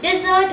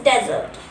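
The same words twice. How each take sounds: First: Dessert as di-ZERT, stressed at the end; pronunciation contrast. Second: Desert as DEZ-ert, stressed at the front; pronunciation contrast. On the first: Teacher contrasts it with desert, di-ZERT for dessert. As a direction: say dessert with a light "di" first. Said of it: "but it is desert". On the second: Teacher names the sandy place, DEZ-ert for desert. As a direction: say desert with a short "dez" first. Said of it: "रेगिस्तान वाली जगहों के लिए". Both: Shown as a demonstration.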